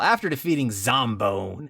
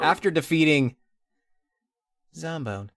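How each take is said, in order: First: The name is said with dramatic, exaggerated delivery. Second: The name is said in a flat, ordinary way. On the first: The speaker calls it right. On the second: The speaker calls it wrong.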